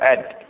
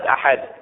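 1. يُحذف حرف الحلق الأوسط. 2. يُنطق حرف الحلق الأوسط بوضوح. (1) "الوسط ما أتيت به أد" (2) "أد ما تفيد أحد، مو نفس أحد"

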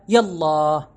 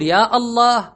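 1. 'يا' تتصل مباشرة بـ'الله' دون قطع. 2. توجد همزة قطع تفصل بين 'يا' و'الله'. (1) "ووصلها" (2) "بقطع الهمزة"

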